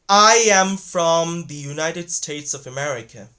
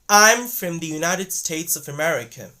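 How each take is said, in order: First: The word from has a full vowel. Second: The word from has a reduced vowel. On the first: The speaker calls it wrong. "don't say I am from the United States of America. No, they're not gonna say like this" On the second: The speaker calls it right. "but rather they're gonna say like"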